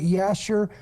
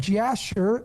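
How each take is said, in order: First: The name begins with a Y sound. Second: The name begins with a J sound.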